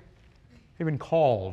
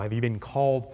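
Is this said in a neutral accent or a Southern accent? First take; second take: Southern; neutral. First: It is said in an exaggerated Southern accent. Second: It is said in the speaker's ordinary accent.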